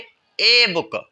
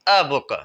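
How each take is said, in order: First: The article is pronounced with an 'ay' vowel. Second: The article is pronounced with a short 'uh' vowel. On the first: The speaker calls it wrong. "ये गलत हम pronounce कर रहे हैं" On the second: The speaker calls it right. "इसका सही क्या होगा"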